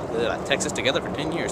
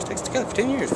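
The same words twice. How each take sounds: First: Said in the usual way. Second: Squeaky high pitched retake; high silly voice. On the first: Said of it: "Ugh, retake". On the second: Shown as a demonstration. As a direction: jump way up in pitch. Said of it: "retake after ugh".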